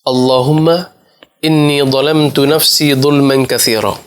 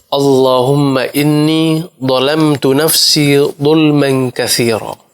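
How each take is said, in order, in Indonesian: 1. Dibaca dengan kecepatan normal. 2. Dibaca pelan dan hati-hati.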